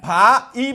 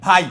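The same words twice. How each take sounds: First: ভা and ই as two raised, loud beats; separately pronounced vowels. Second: ভাই as a single falling syllable; said in one go. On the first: Teacher showing what we don't say, ভা ই apart. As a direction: split ভাই into ভা, then ই. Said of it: "আলাদা করে উচ্চারণ করতে পারছি না". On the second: Teacher showing how we really say it, ভাই in one beat. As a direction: glide ভা into ই without a break. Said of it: "ভাই একবারে". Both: Shown as a demonstration.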